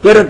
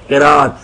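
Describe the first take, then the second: First: The middle vowel is short and clipped. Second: The middle vowel is drawn out long. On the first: The speaker calls it wrong. "किरत नहीं" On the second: The speaker calls it right. "लंबा करके किराअत"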